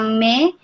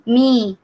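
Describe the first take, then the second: First: The syllable is said with an 'e' vowel. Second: The syllable is said with an 'i' vowel. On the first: "harusnya dibaca me" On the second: "jadi mi"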